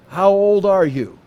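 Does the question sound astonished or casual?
casual. The question is asked in a casual, plain way. It is a simple polite question about age. "Does he just say"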